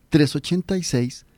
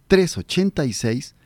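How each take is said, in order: Both takes have the same delivery.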